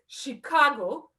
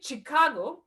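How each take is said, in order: First: It begins with a soft 'sh' sound, French-style. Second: It begins with a 'ch' sound, as in cheese. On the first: The speaker calls it right. "it's Chicago, like in French" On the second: The speaker calls it wrong. "I used to say Chicago, like cheese"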